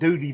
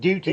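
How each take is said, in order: First: The middle consonant sounds like a soft D. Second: The middle consonant is a clear T. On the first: This is how the other person said it. "you pronounced it duty belt" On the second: This is the standard way to say it. "not duty"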